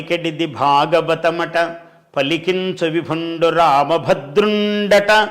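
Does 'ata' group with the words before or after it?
before. The pause comes right after each 'ata'.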